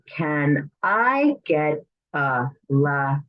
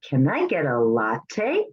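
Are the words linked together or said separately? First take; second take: separately; linked. First: Each word is said clearly and separately. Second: The words run together in relaxed speech. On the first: "if we were to say the words" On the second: "completely natural pronunciation, we put the words together"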